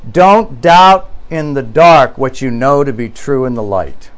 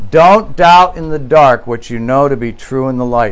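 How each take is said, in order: First: Slow solemn quote. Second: Said in the usual way. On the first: Retold or imitated. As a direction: read slowly and deliberately, letting "light" drop away. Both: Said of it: "It's a very profound statement".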